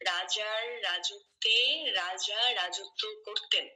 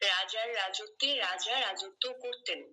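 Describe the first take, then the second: First: The sentence is spoken slowly. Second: The sentence is spoken at medium speed. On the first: "প্রথমে আপনি ধীরে ধীরেই বলতে পারেন" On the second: "তারপরে মাঝারি ভাবে মানে মোটামুটি একটু স্পিড বাড়াবেন"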